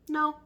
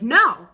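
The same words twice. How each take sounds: First: The word is said calmly. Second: The word is shouted loudly.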